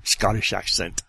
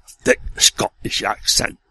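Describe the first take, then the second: First: Said in the usual way. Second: Thick Scottish accent on accent; broad Scottish accent. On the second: Shown as a demonstration.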